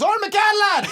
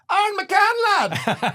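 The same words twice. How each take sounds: First: Very high, loud imitated shout; fan shouting name. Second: High, loud mock yell of a name; fan yelling name. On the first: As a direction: bellow his name out the window. Fan yells from car again. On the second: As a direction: hail him from a passing car. Fan yells from car window.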